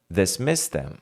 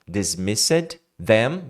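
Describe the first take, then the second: First: The d sound before them is dropped. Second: The d sound before them is pronounced. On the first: "você tira o d" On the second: "Dismissed them vira dismiss them"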